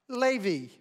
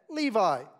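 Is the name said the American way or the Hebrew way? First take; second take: Hebrew; American. First: Said in Hebrew style as lay, vee. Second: Said in the usual American English style. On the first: "We would hear that pronounced Levi, L-E-H, Lay, and V, V-E-E" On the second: "In America, we would typically say that Levi"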